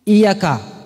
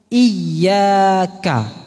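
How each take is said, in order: First: The middle sound is said short. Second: The middle sound is held long. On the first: It means woe to you, O Allah. The speaker calls it wrong. "jangan sampai pendek" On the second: It means to you, O Allah. The speaker calls it right. "Ada posisinya itu panjang, dua harokat"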